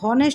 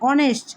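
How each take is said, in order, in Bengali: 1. শব্দটি h ধ্বনি দিয়ে শুরু হয়। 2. শব্দটি সরাসরি একটি স্বরধ্বনি দিয়ে শুরু হয়। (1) "এটা কিন্তু হনেস্ট উচ্চারণ হচ্ছে না" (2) "এইচের উচ্চারণ হচ্ছে না, ভাওয়েলের অ ধ্বনি আসতেছে"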